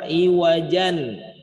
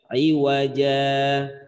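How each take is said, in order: First: The word ends with an n sound. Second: The word ends without the n sound. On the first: The reader continues without stopping. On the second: The reader stops at this word.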